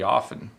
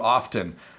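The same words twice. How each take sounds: First: The word is slurred without the T sound. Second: The T sound is clearly pronounced. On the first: The speaker is chatting casually. "I just kind of slur the word often" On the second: The speaker is making a firm point. "when I'm trying to make a point, I will say the T"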